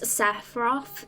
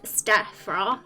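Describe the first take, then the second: First: The name begins with a plain S sound. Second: The name begins with an ST sound. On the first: The speaker calls it right. "There's not even a T" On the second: The speaker calls it wrong. "I called Sephiroth Stephiroth. There's not even a T"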